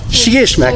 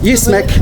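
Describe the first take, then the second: First: The word begins with a sh sound. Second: The word begins with a y sound. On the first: The speaker calls it right. "With, with a sh" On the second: The speaker calls it wrong. "I've been saying that wrong all that time"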